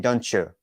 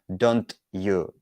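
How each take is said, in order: First: The t and y blend into a ch sound. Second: The t and y sounds are kept separate. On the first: The speaker calls it right. "when you say don't you, it's smooth" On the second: The speaker calls it wrong. "listen to me saying don't you don't you it doesn't sound good"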